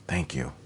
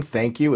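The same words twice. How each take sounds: First: Tiny, low, barely voiced thank-you; almost swallowed, much softer and lower; very small. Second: Said in the usual way. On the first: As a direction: drop right down and say it small, under the breath. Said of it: "It's very small to s-, designate". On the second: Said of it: "It's very small".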